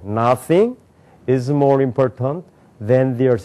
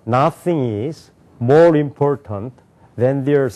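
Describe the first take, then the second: First: The break comes after the word 'nothing'. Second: The break comes after the word 'is'. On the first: The speaker calls it right. "주어 ... 이렇게 읽는다 미국 사람들" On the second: The speaker calls it wrong. "이렇게 읽는 사람이 있어요 ... 완전히 틀렸다는 거예요"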